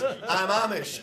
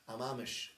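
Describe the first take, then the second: First: Louder, laughing as he repeats it; laughing punchline. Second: Said in the usual way. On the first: Retold or imitated. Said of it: "He goes". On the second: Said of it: "he says".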